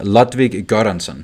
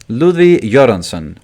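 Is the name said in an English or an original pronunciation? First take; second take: English; original. First: The name is said in an English pronunciation. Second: The name is said in a non-English pronunciation.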